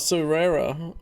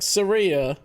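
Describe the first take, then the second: First: It is said with a different middle vowel. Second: It is said like the country name Syria. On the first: The speaker calls it right. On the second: The speaker calls it wrong.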